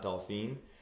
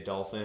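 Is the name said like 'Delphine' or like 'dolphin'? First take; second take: Delphine; dolphin. First: The name sounds like the French name Delphine. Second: The name sounds like the English word dolphin. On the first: The speaker calls it right. "and not Delphine" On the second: The speaker calls it wrong. "every time they hear me say Dolphin"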